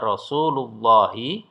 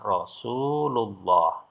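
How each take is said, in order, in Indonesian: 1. Kata ini berakhir dengan vokal i pendek. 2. Kata ini berakhir dengan konsonan h mati. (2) "Kalau diwakaf atau berhenti dibaca"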